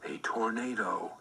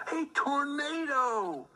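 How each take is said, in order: First: Said in the usual way. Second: High, slow cry of alarm; alarmed exclamation. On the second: A narrator's reading. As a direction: sound the tornado warning, high and slow. Narrator dramatizes tornado.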